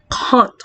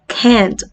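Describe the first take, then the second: First: The vowel is a broad, back A sound. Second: The vowel is a flat, front A sound. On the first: "Sa kanila ata" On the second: "sa American English natin"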